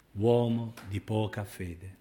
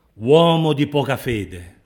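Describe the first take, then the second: First: Said in the usual way. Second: Slow, loud, stretched-out reproach; acted reproach at raised volume; loud rebuke. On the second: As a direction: call out the rebuke, drawing out "Uomo". Voicing rebuke, then repeating it softly.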